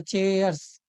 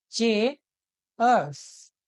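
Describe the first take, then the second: First: चेयर्स as one word with a clear final s; joined up, clear ending. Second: चेयर्स very slowly as chay, pause, urzz; broken into sounds. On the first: Teacher repeating for students, चेयर्स whole with clear final s. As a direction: join चेयर्स up, keep the ending audible. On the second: Teacher showing how the ending sounds, चेयर्स broken up very slowly. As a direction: split चेयर्स in two, drawing out each part. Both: Shown as a demonstration. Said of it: "स का sound आ रहा है".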